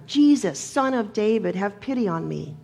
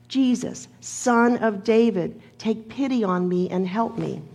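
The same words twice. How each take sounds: First: Insistent yell. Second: Calling out. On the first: Hushed blind beggar to Jesus, yelling louder to be heard. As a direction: yell the name out, then let the plea drop. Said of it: "he yells even louder". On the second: Blind beggar to Jesus in the passing crowd, calling out. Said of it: "he called out in a loud voice". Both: Retold or imitated.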